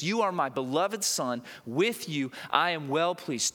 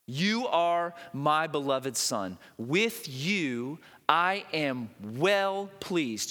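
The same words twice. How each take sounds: First: Said in the usual way. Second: Slow solemn divine voice. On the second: Acted. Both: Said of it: "a voice came from heaven".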